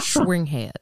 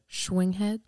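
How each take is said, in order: First: It is said with a put-on accent. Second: It is said in a plain, normal voice.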